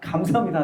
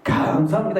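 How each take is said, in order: First: The thanks sounds earnest and heartfelt. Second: The thanks sounds grudging and insincere. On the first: The speaker gives thanks by faith despite hardship. The speaker calls it right. "비꼬는 것이 아니라 정말 내가 감사할 수 없지만 믿음으로 감사합니다" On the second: The speaker is not truly thankful. The speaker calls it wrong. "이게 아니라"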